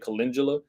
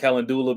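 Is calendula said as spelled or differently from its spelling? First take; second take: differently; as spelled. First: The word is said differently from its spelling. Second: The word is said the way it is spelled. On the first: The speaker calls it right. "but you really say calendula" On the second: The speaker calls it wrong. "a lot of people pronounce it calendula because that's how it's spelled"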